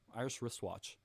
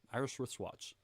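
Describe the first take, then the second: First: The middle sounds are blended together smoothly. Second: The middle sounds are blended together smoothly.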